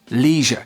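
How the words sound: It is said in an American English accent. "In American English"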